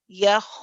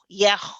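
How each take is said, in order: First: The vowel is a plain, neutral open sound. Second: The vowel is overly thin and light. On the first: The speaker calls it right. "how you would say the normal fatha ya" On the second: The speaker calls it wrong. "That's too much too. That's gone the other way"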